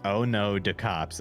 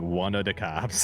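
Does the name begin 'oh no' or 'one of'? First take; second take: oh no; one of. First: The name begins with the sounds 'oh no'. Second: The name begins with the sounds 'one of'. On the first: The speaker calls it right. "it clearly says" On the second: The speaker calls it wrong. "you've been saying"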